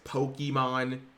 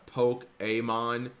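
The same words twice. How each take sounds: First: The 'ke' is said without the accented 'kay' sound. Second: The 'ke' is said with the accented 'kay' sound. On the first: The speaker calls it wrong. "literally not how you pronounce it" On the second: The speaker calls it right. "There's an accent"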